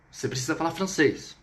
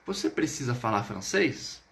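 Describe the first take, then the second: First: "você precisa falar francês" falling at the end; statement tune, down on "francês"; affirmative intonation. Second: "Você precisa falar francês" with a rising end; question intonation. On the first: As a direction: state it, letting "francês" drop. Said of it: "dentro de um contexto afirmativo". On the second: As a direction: ask it, lifting "francês". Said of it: "Vamos colocar novamente essa perguntinha". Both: Shown as a demonstration.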